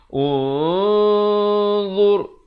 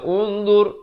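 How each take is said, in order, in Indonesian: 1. Huruf n samar dan ditahan dengan bunyi sengau. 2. Huruf n dibaca jelas tanpa ditahan sengau. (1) "Jadi di sini dibacakan dengan samar. Jadi ikhfa dua harakat" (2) "Jangan baca unzur, unzur. Itu tak betul"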